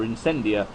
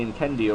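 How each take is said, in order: First: Incendia with a soft S sound in the middle; soft C pronunciation. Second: Incendia with a hard K sound in the middle; hard C pronunciation. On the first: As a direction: say Incendia as "in-SEN-dia". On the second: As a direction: say Incendia as "in-KEN-dia". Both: Shown as a demonstration. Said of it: "depends on your pronunciation".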